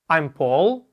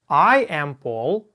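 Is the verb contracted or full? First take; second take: contracted; full. First: The verb is contracted into one quick syllable. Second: The verb is said as two separate words. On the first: "а второй раз в сокращенной" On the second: "Первый раз читаем глаголы to be в полной форме"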